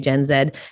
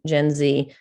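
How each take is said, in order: First: The Z is said the Canadian way, zed. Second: The Z is said the American way, zee.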